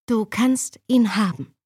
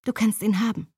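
First: Steady firm voice, stress on ihn. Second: Light, easy offhand; carefree. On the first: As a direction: say it firmly and mean it. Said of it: "wiederholte ich mit fester Stimme". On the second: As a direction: shrug it off lightly. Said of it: "verkündete ich unbekümmert". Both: Acted.

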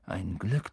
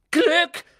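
First: Said in the usual way. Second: Shrieked high and loud; girl shrieking at the boys in disbelief. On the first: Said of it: "sagt Ron". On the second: Acted. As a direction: throw the word back in a shriek. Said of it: "kreischte Hermine".

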